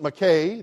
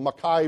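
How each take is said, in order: First: The name is pronounced the way outsiders say it. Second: The name is pronounced the way locals say it. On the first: The speaker is not from the area. The speaker calls it wrong. "If you pronounce it Mackay, then they know you're not from there" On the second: The speaker is from the area. The speaker calls it right. "It's the Mackay Bridge"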